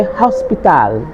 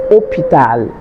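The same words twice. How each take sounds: First: Hospital with the S sounded and a full final "tal"; Spanish-style hospital, clear vowels in each syllable; Spanish pronunciation. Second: Hôpital begun straight on the O, no H sound; French hôpital with the H and S left out; silent H. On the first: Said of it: "But in Spanish". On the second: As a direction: say hôpital the French way, "o-pee-tal". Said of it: "it is a silent H". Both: Shown as a demonstration.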